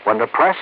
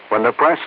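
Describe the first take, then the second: No difference in how they are said.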